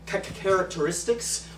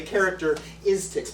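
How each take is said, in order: First: Ca-, ca-, characteristics with a stuttered start; stuttered word. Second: Said in the usual way. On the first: Shown as a demonstration. Comic showing his stutter, stuttering. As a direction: trip on the first syllable of characteristics. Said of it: "a selection of Syndrome's many". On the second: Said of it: "or as Syndrome would say".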